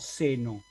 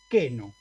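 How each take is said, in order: First: The word begins with an S sound. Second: The word begins with a K sound. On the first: The speaker calls it wrong. "no seno" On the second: The speaker calls it right. "voy a leer queno"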